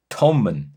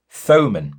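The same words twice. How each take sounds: First: Thomann with a short O, "TOM-un"; alternative guessed pronunciation. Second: Thomann with a long O, "TOE-mun"; first guessed pronunciation. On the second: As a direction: say Thomann as "TOE-man", long open-ended O. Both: Shown as a demonstration. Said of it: "correct me if I pronounce this wrong".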